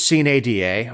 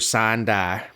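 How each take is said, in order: First: It is pronounced the standard, non-Georgian way. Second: It is pronounced the Georgian way, like 'sign die'.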